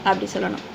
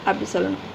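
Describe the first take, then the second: No difference in how they are said.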